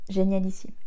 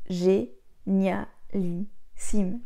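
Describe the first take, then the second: First: Génialissime martelé syllabe par syllabe; chaque syllabe appuyée. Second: Génialissime étiré très lentement, montée finale; étire génialissime, syllabe par syllabe; très lent, appuyé. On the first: (Génialissime dit en syllabes détachées et appuyées) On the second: (génialissime traîné très lentement, montée finale) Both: Shown as a demonstration. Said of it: "Et j'appuie sur chaque syllabe".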